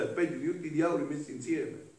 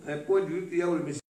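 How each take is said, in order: First: Said in the usual way. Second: Very fast emphatic repeat. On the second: Shown as a demonstration. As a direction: rattle it off fast to drive it home.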